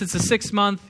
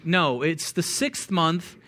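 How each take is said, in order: First: Said in the usual way. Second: Each word of "No, it's the sixth month" slow and weighted; slow emphatic correction. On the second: Shown as a demonstration. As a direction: correct them slowly, leaning on "sixth month".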